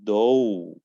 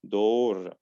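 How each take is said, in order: First: It is said with an American accent. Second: It is said with a British accent. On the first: "In American" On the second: "in British"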